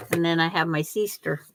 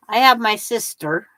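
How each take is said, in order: First: "sister" with a long ee, SEE-ster; the different sister. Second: Said in the usual way. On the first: Shown as a demonstration. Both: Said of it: "There's a difference".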